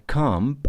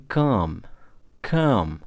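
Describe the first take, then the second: First: Comb with the B at the end sounded out; final B pronounced. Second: "come" ending on the M, no B; silent B. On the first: Teacher shows learners what not to say, "comb" with audible B. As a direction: say "comb" wrongly, releasing a B after the M. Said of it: "jadi kita bukan comb". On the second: Teacher shows learners the correct comb, B silent. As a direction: let "come" close on the lips at M, B left silent. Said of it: "bukan comb, tapi come". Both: Shown as a demonstration.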